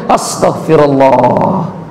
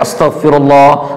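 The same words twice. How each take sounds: First: It is said with a long, dismayed drawn breath. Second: It is said quickly and routinely, without a sigh. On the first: The person has just remembered a serious mistake. "tarik napasnya agak panjang" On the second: It is the ordinary prayer said after worship. "yang lain astagfirullah"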